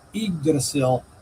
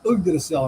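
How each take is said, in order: First: The first syllable sounds like 'ig'. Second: The first syllable sounds like 'ug'. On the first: The speaker calls it wrong. "Some people mispronounce that as" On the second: The speaker calls it right. "but it is"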